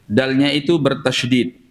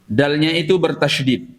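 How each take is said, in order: Both takes have the same delivery.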